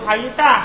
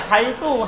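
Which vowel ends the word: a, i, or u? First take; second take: a; u. First: The word ends with a short a vowel. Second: The word ends with a short u vowel. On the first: "Kalau haitsa ya fathah terus" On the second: "Kalau antum bilang haitsu ya dhamma terus"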